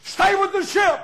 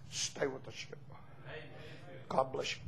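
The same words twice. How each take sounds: First: High, loud charge to the church; loud shouted sermon line; shouted preaching. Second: Lower, much softer last charge; hushed farewell sermon line; soft closing plea. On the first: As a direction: call it out like a battle cry. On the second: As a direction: say it gently as a final plea. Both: Acted.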